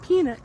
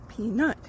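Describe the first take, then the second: First: The stress is on the first syllable. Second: The stress is on the second syllable. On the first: The speaker calls it wrong. "It's not peanut" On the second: The speaker calls it right. "the emphasis on the second syllable"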